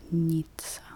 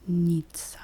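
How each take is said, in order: Both takes have the same delivery.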